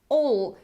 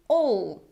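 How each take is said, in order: No difference in how they are said.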